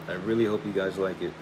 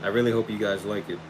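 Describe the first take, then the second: No difference in how they are said.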